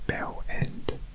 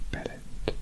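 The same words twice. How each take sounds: First: It is said slowly, the two parts held apart. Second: It is said quickly, the two parts run together. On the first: The speaker calls it wrong. "that's too slow" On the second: The speaker calls it right. "it has to kind of roll quite naturally"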